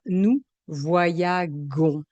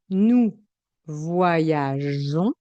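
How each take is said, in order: First: The g is said hard, like the g in 'go'. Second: The g is said soft, like the j in 'je'. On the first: The speaker calls it wrong. "Si je ne mets pas le E, le son sera" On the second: The speaker calls it right. "je vais garder le son J"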